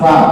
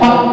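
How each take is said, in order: First: It begins with breath flowing through the lips. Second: It begins with the lips fully closed. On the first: The speaker calls it right. "Anginnya keluar, nafasnya keluar" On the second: The speaker calls it wrong. "benar apa tidak? Salah"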